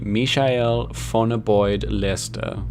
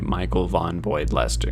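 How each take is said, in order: First: The name is pronounced with German sounds. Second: The name is pronounced with English sounds. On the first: "If I wanted to go full German" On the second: "And then there's the English way"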